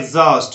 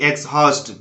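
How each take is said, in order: First: The x sounds like egz with no h. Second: The x sounds like eks followed by h. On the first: The speaker calls it right. "इसको बोलना है एग्जॉस्ट" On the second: The speaker calls it wrong. "एक्सहॉस्ट बोलना गलत है"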